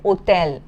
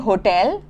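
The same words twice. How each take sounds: First: The word starts with a silent h. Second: The word starts with an audible h sound. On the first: "but in French you will say hotel" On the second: "in English we say hotel"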